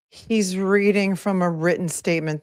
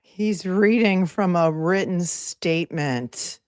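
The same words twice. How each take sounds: First: Said in the usual way. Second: Slow mocking. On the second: Real, not acted.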